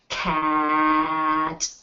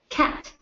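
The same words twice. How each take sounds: First: The word is said slowly with a stretched vowel. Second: The word is said quickly as one short unit. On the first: "we will have to blend it by stretching the rhyme" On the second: "Now I'm going to say it fast"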